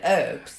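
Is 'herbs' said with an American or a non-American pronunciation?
American. The word has an American pronunciation. "Maybe you were American"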